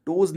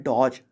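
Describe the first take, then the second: First: डोज with a closed long 'oh'; common mispronunciation. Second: डॉज with an open 'aw' vowel; correct pronunciation. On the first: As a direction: say डोज as 'doze', rounded o. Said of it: "डोज नहीं पढ़ते हैं". (डोज, गलती से बंद 'ओ' के साथ) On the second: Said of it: "इसको पढ़ते हैं डॉज". (डॉज का सही उच्चारण, खुला 'ऑ') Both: Shown as a demonstration.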